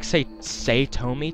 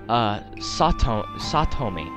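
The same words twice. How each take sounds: First: The first vowel is not an 'ah' sound. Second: The first vowel is an open 'ah' sound. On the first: "It sounds like Satomi to me" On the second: "A's in the Japanese language are always pronounced as ah"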